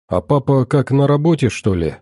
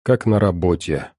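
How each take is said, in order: First: «как, на работе» lifted high, then dropping on «что ли»; questioning tune. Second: Said in the usual way. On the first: Acted. Daughter asks mother about papa, questioning tune on «на работе». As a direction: ask with «на работе» raised high.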